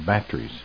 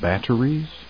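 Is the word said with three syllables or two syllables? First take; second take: two; three. First: The word is said with two syllables. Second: The word is said with three syllables. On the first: "they kind of shorten it by a syllable and say batteries" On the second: "instead of saying batteries"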